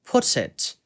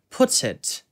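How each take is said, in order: First: The t sound is clearly pronounced. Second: The same.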